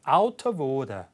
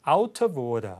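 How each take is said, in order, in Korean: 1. 북미 영어가 아닌 억양으로 말합니다. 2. 북미 영어가 아닌 억양으로 말합니다.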